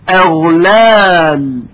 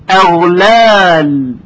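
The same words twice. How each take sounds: The two takes are said the same way.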